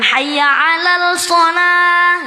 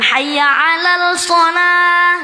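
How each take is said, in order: First: An L sound is heard before 'shalah'. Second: An L sound is heard before 'shalah'.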